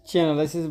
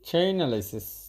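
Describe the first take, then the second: First: The first syllable sounds like 'chee'. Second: The first syllable sounds like 'chain'. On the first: This is how the company founder says it. "চিনালাইসিস বলতেছে" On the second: This is how the computer voice says it. "আমাদের রোবটে বলতেছে চেইনালাইসিস"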